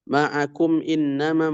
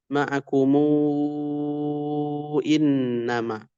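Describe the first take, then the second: First: The word ends on m with no added vowel. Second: A long u vowel is added after the m.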